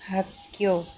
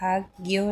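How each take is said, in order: First: The middle is pronounced as a doubled tense k. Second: The middle is pronounced as k followed by g. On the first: The speaker calls it right. "हम दोनों क को साथ में छोड़कर क प्रोनाउंस करेंगे" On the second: The speaker calls it wrong. "हाक ग्यो नहीं बोलेंगे"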